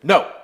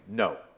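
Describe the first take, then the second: First: It is said with the most force, escalated. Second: It is said sternly, at a middle level.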